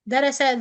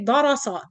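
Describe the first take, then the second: First: All three letters are said light. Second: All three letters are said heavy. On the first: "the three letters are light" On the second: "that means that the three letters are heavy"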